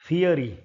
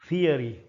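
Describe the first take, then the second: The two takes are said the same way.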